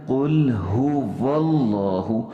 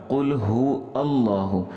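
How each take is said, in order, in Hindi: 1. 'Huwa' बिना रुके सीधे 'llahu' में मिल जाता है। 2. 'Allahu' की शुरुआत एक अलग glottal stop से होती है। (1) "बल्कि पढ़ना है कुल हु वल्लाहु" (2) "लोग पता है किस तरह पढ़ते हैं ... इसको हमज़ा बना लेते हैं। हालांकि ये सरासर गलत है"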